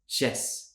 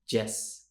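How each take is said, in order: First: It starts with an SH sound. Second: It starts with a J sound. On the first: "maybe it's more of a sh sound" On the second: "Spanish speakers will say the J sound for Y letters"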